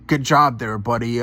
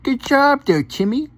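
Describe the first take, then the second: First: It is said in a normal voice. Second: It is said in a baby voice.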